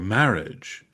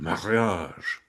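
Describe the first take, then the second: First: It is said with modern English pronunciation. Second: It is said with an older, French-style pronunciation.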